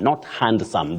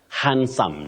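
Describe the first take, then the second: First: The D sound is clearly pronounced. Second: The D sound is left silent. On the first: The speaker calls it wrong. "that we commonly hear around us" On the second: The speaker calls it right. "That D is not pronounced in that word"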